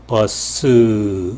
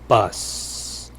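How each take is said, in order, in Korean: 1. 단어 끝에 모음 소리가 덧붙어요. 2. 단어가 쉿 하는 마찰음으로 끝나요. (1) "우리말은 길게 하면은 버스 으 소리가 나죠" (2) "영어는 으 소리가 없죠. 버스, 버스 이렇게 예, 마찰음으로 끝내야 됩니다"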